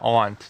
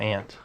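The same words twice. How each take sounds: First: The vowel differs from the insect word 'ant'. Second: The vowel matches the insect word 'ant'. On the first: The speaker calls it right. "No, aunt" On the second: The speaker calls it wrong. "not aunt"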